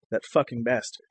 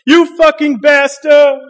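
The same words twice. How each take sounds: First: Much softer, lower hushed "That fucking bastard."; mock whisper. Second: Higher, louder, slow drawn-out yell of "You fucking bastard!"; mock driver's yell. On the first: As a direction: murmur "That fucking bastard." under her breath like the ex. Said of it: "she whispers". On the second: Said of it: "an angry driver screams".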